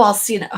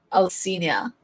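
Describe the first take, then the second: First: Alcina in three syllables, "al-SEE-nuh"; corrected pronunciation. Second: Alcina with an extra ee-uh ending; mispronounced name. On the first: Streamer correcting the name, Alcina said as "al-SEE-nuh". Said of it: "The name is pronounced". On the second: Streamer trying a name, Alcina said as "al-SEE-nee-uh". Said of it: "I still have trouble pronouncing names". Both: Real, not acted.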